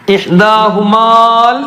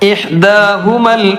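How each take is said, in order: First: The vowel before the final l is long. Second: The vowel before the final l is short. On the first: The speaker calls it wrong. "ഇഹ്ദാഹുമാൽ എന്ന് പറയില്ല" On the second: The speaker calls it right. "ആ നീട്ടാനുള്ളത് ഒഴിവാകും"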